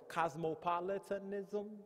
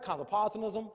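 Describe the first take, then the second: First: The word is said slowly and deliberately. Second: The word is said at normal speed.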